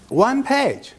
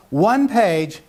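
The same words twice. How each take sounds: First: "One page" said much higher with a strong fall on "page"; emphatic repeat. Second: Said in the usual way. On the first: Shown as a demonstration. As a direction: hammer home "One page".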